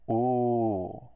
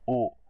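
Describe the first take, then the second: First: The vowel is long and the mouth opens wider. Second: The vowel is short and kept inside the mouth. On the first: "The long sound comes outside of the mouth" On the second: "the short sound, stays inside the mouth"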